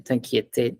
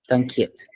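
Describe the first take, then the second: First: "t'inquiète" with a sounded te at the end; wrong pronunciation demo. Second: "t'inquiète" ending on a bare t; correct French pronunciation. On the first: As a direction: mispronounce "t'inquiète" as tan-kye-te. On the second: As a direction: say "t'inquiète" as tan-kyet, silent final E. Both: Shown as a demonstration.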